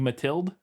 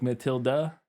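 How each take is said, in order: First: The name ends without an uh vowel. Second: The name ends with an uh vowel. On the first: "It might just be Matilde" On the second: "that E at the end ... would be an uh sound. Like Matilda"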